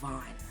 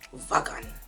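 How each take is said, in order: First: The name is said with no G sound. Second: The name is said with a hard G sound. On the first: The speaker calls it right. "It's Vaughn" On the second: The speaker calls it wrong. "it sounds like you're German and you're saying wagon"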